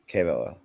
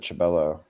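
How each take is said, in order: First: The name begins with a 'k' sound. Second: The name begins with a 'ch' sound. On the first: The speaker calls it right. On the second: The speaker calls it wrong.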